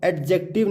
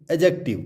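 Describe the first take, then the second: First: एडजेक्टिव said as "ad-jective"; एडजेक्टिव with a stop before the j; sounded D. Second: एडजेक्टिव said as "a-jective"; एडजेक्टिव with a plain j, no D; silent D. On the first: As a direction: pronounce the D in एडजेक्टिव. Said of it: "इसको हम एडजेक्टिव नहीं बोलेंगे". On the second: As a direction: leave the D out of एडजेक्टिव. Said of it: "इसको हम बोलेंगे". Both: Shown as a demonstration.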